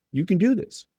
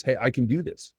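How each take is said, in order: First: Pitched well up, rising and bright on do; upbeat encouragement. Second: Said in the usual way. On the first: Shown as a demonstration. Coach telling a kid he can do it, upbeat and high. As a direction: cheer the player on, lifting at the end. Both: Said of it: "that's the inflection of that opportunity".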